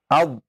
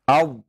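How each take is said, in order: Both takes have the same delivery.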